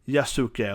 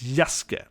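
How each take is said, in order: First: The u after the s is clearly sounded. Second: The u after the s is silent. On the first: The speaker calls it wrong. "not Yasasuke or Yasuke or something" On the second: The speaker calls it right. "You don't pronounce the U"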